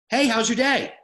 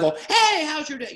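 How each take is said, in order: First: The greeting sounds casual and natural. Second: The greeting sounds weird and overdone.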